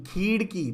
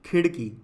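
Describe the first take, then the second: First: खीड़ की with a long खीई; wrong long vowel. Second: खिड़की with a quick, short खि; correct short vowel. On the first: Teacher reads out the misspelling, long vowel. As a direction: stretch the first ee in खीड़ की. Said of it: "तो नहीं होता". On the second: Teacher gives the right word, short vowel. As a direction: keep the first i of खिड़की brief. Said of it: "क्या होता है?". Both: Shown as a demonstration.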